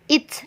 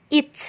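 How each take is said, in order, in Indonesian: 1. T di akhir dilepaskan dengan letupan yang jelas. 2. T di akhir dilepaskan dengan letupan yang jelas.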